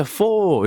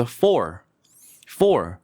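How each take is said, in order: First: "four" drawn out with the final R dropped; mock wrong "four", long open vowel instead of R; mistaken learner pronunciation. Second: "four" with a firmly curled R at the end; crisp model "four", R fully sounded; strong final R. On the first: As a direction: imitate a learner saying "four" as an R-less "fo-o". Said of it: "이렇게 하시는 분들 많아요". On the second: Shown as a demonstration. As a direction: hit the R clearly in "four". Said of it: "R 발음을 세게 해야 돼요".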